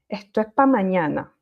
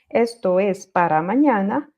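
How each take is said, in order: First: The word para is shortened to pa. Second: The word para is said in full.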